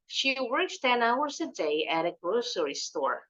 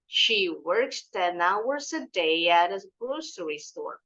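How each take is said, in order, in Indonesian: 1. Kalimat itu diucapkan sedikit lebih cepat. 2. Kalimat itu diucapkan pelan. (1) "baru dipercepat sedikit" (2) "Pelan-pelan aja dulu"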